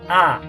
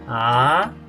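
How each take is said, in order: First: The pitch drops sharply from high to low. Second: The pitch climbs upward from middle to high. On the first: "El cuarto tono es básicamente un acento nuestro" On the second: "El segundo tono es un tono ascendente, sube alto"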